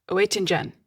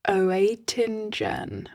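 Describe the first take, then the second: First: Quicker, half-hearted German accent on the surname; attempted German accent. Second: Oetingen stretched out very slowly, feeling for each syllable; unsure pronunciation. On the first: Shown as a demonstration. Host retrying a researcher's surname, half-hearted German accent. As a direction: have an unconvincing go at a German accent. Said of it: "shall I do a German accent". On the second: Real, not acted. Host stuck on a researcher's surname, Oetingen drawn out uncertainly. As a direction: sound out "Oetingen" haltingly as "oh-ay-tin-jen". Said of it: "how do I say that?".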